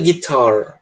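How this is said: The final R sound is strongly pronounced. "Nunca guitar, que nem o americano"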